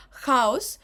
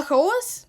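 First: «Хаос» as KHA-os, first vowel hit; stress on first syllable. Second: «хаос» as kha-OS, loud high second vowel; stress on last syllable. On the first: Teacher showing mythological Хаос, first-syllable stress. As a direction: lean on ХА in «Хаос». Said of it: "ось тут наголос потрібно запам'ятовувати". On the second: Teacher showing хаос meaning mess, last-syllable stress. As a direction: punch ОС in «хаос». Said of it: "наголос потрібно запам'ятовувати в залежності від значення". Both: Shown as a demonstration.

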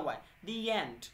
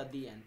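First: "दी एंड" linked as "dee-yand" with a y glide, slow; correct pronunciation. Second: "दी एंड" said as a clean "dee and" with no glide between the words; wrong pronunciation. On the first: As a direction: show the right way, slide a y sound from दी into एंड. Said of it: "और यहाँ पर ए बन जाता है वाई". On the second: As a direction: give "दी एंड" the wrong way, dee then and with a gap and no y sound. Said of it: "तो ये गलत है". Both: Shown as a demonstration.

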